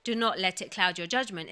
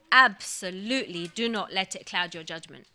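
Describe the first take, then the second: First: Said in the usual way. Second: "Absolutely" pressed hard with a firm falling close; emphatic. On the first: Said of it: "So it's not just". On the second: Shown as a demonstration. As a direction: land each word of "Absolutely do not let it cloud your judgment" with weight, firm falling ending. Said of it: "So Allah is very emphatic here".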